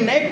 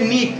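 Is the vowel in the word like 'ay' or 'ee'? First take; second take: ay; ee. First: The vowel is an 'ay' sound. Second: The vowel is a long 'ee' sound. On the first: The speaker calls it wrong. "এটাকে নেক পড়ার কোনো সুযোগ নাই" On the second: The speaker calls it right. "তাহলে হবে নিক"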